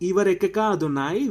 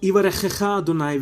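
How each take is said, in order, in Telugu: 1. kh శబ్దాలకు బదులు సాధారణ k వాడతారు. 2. kh శబ్దాలు గరుకుగా, గొంతులోంచి వస్తాయి. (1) "ఈ గట్రల్ లెటర్స్ లేకుండా పలికితే ఎలా ఉంటుందో" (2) "సో ఇది దాని ప్రొనౌన్సియేషన్"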